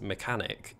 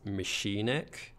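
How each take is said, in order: First: The word has its usual spoken pronunciation. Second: The word is sounded out as it is spelled. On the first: The speaker calls it right. "a word that I read" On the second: The speaker calls it wrong. "I would read it as machinic"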